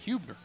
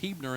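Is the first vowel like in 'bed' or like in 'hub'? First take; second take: hub; bed. First: The first vowel sounds like 'u' in 'hub'. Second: The first vowel sounds like 'e' in 'bed'. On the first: The speaker calls it wrong. "and not Hubner" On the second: The speaker calls it right. "the name is actually pronounced Hebner"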